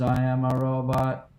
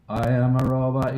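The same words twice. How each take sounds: First: Slow even robot line. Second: Even spoken robot voice. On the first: Retold or imitated. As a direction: drone it like a robot. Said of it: "He goes". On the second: Shown as a demonstration. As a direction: say it like a robot, level. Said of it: "I want you to say this".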